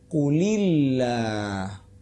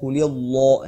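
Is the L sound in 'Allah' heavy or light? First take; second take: light; heavy. First: The L in Allah is thin and light. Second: The L in Allah is thick and heavy. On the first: The speaker calls it right. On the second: The speaker calls it wrong.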